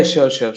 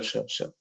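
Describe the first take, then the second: First: Said in the usual way. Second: Breathy whispered sure sure; whispering. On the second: Real, not acted. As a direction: whisper it under your breath. Jokes about meme on server.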